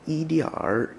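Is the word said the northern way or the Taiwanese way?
northern. The word ends with an added r sound. "kind of like a more northern way of pronouncing it, more Beijingese way"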